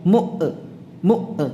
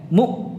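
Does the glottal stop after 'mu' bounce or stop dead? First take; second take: bounces; stops dead. First: The glottal stop is released with a bounce. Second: The glottal stop is held, with no release. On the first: The speaker calls it wrong. "tidak memantul mu mu enggak" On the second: The speaker calls it right. "mu macet"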